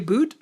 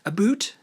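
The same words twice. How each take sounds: First: The word is said in a plain accent. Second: The word is said in an exaggerated Canadian accent.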